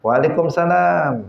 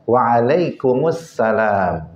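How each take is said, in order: First: Quick, high "Walikumsalam" with the al swallowed; casual habitual reply; sloppy reply. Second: Slow, drawn-out "Waalaikumsalam" with clear al; careful model reply; correct reply. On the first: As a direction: rattle off "Waalaikumsalam" carelessly. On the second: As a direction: stretch "Waalaikumsalam" syllable by syllable. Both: Shown as a demonstration. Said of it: "Bukan jawabnya".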